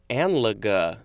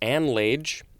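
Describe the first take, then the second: First: The word ends with an audible vowel. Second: The final e is silent. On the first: The speaker calls it right. "but I think it's pronounced anlaga" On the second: The speaker calls it wrong. "a word that I wanted to pronounce as"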